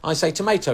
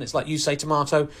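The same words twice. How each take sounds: First: Tomato with the ay sound, "tomayto". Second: Tomato with a broad ah, "tomahto". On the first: Friend contrasting his own word, saying "tomayto". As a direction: say tomato as "tom-AY-to". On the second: Friend defending his pronunciation, saying "tomahto". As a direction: say tomato as "tom-AH-to". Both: Retold or imitated. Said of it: "He might go".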